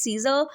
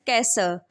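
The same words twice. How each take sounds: First: The name is pronounced the English way. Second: The name is pronounced the Persian way. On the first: "In English, it is uh, pronounced as Caesar" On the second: "in Persian, it is pronounced as Caesar"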